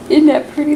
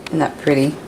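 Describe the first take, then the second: First: Much higher cooing. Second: Said in the usual way. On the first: Acted. Showing husband's plate, repeated.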